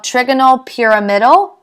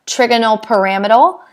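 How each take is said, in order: First: "trigonal pyramidal" with PEER-uh-MID-al; pronunciation variant. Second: "trigonal pyramidal" with puh-RAM-id-al; alternative pronunciation. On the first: Teacher summarizing the shape's name, "pyramidal" as PEER-uh-MID-al. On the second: Teacher offering the other pronunciation, "pyramidal" as puh-RAM-id-al. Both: Shown as a demonstration. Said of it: "Everyone pronounces it different".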